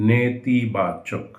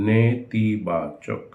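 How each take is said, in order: The two takes are said the same way.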